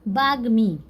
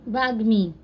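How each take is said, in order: The two takes are said the same way.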